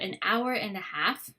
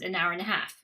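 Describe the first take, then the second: First: Each word is said separately, without linking. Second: The words run together in connected speech. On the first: "shows how it gets from one to the other"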